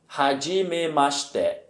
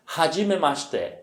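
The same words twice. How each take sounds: First: Slow "hajimemashite", syllables stretched out; drawn-out teacher's "hajimemashite"; slow model repetition. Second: Said in the usual way. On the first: Shown as a demonstration. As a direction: repeat "hajimemashite" slowly so learners can follow. Teacher repeats phrase slowly for learners.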